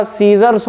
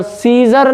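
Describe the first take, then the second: First: सीजर्स with a clear s at the end; correct plural with s. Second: सीजर said slowly, without the final s; wrong form without s. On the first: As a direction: finish सीजर्स on a crisp s. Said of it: "सीजर्स होता है". (सीजर्स, आख़िर में साफ़ एस के साथ) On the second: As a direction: say सीजर, stopping on the r, with no s. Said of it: "सीजर नहीं होता". (सीजर बिना एस के, धीरे से) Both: Shown as a demonstration.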